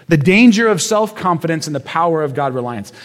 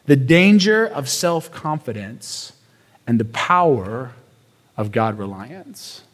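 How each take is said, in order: First: Said in the usual way. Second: Slow, softening statement. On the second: Shown as a demonstration. First statement of the point.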